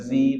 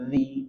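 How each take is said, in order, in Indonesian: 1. Konsonannya berbunyi z biasa. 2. Konsonannya berbunyi th bersuara. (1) "Jangan sampai zi" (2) "tapi zi"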